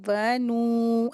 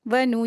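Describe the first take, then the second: First: The vowel after n is drawn out long. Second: The vowel after n is said short. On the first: The speaker calls it wrong. "ऐसे खींच के पढ़ते हैं जैसे हरूफ मद्दा हो, नहीं।" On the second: The speaker calls it right. "तो इसको जल्दी पढ़ेंगे यहाँ पर।"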